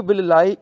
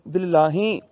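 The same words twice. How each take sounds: First: bill ਲਾਏ ending "laa-e", no h; singular oral ending. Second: bill ਲਾਹੇ ending in nasal "laa-hen"; plural h ending. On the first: Teacher explaining the singular, bill ਲਾਏ without h. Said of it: "ਈੜੀ ਨੂੰ ਸਿਆਰੀ ਆ ਗਈ". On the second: Teacher showing the would-be plural, bill ਲਾਹੇ with h. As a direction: sound h in the last syllable of bill ਲਾਹੇ. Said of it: "ਈੜੀ ਦੀ ਥਾਂ ਤੇ ਹਾਹੇ ਨੂੰ ਸਿਆਰੀ". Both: Shown as a demonstration.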